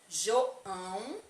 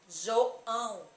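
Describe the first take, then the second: First: The nasal vowel resonates freely through the nose. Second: The nasal vowel sounds blocked, nose held shut.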